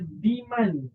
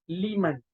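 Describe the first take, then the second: First: The word begins with a d sound. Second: The word begins with an l sound. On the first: The speaker calls it wrong. "Ramai yang baca diman" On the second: The speaker calls it right. "bacaan yang betul ialah liman"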